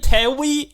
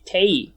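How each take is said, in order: First: "Tewi" with a clear W before the final ee; W sounded in Tewi. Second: "Tei", the W dropped so it runs like "tay"; W left silent. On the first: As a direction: say "Tewi" in two syllables, with the W sounded. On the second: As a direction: say "Tei" with no W sound. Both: Shown as a demonstration. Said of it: "you don't say the W".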